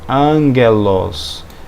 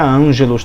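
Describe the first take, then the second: First: The g is a hard g sound. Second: The g is a soft g sound. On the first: The speaker calls it right. "Então nós lemos o que? Angelos" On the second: The speaker calls it wrong. "e nunca ângelos também. Vocês lembram que ele nunca tem som de G"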